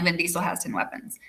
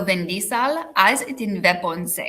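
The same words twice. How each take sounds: First: Said in the usual way. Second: Foreign accent, drawn out slowly; slow put-on foreign accent; Schwarzenegger-style accent. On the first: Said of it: "it's supposed to sound like". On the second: Shown as a demonstration. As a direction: say it like a mock Arnold, accent and all. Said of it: "kind of like an Arnold Schwarzenegger".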